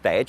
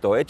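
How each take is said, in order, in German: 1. Das Wort wird im Dialekt gesagt. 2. Das Wort wird in Standarddeutsch gesagt. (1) "sage ich bewusst als Deutsch" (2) "und nicht als Deutsch"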